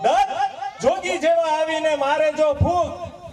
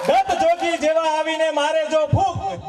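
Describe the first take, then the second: First: Slow the line down, chuckling through it; slower repeat with a laugh. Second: Said in the usual way. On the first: Shown as a demonstration. Comedian repeating the verse slowly to the crowd. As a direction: stretch the repeat, laughing as you go.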